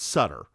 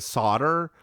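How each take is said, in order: First: The first vowel sounds like 'cup'. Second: The first vowel sounds like 'saw'. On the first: This matches how the name is spelled. The speaker calls it right. "It's spelled S U T T R. It's Sutter" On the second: This is how other people say the name. The speaker calls it wrong. "people keep pronouncing it Sauter"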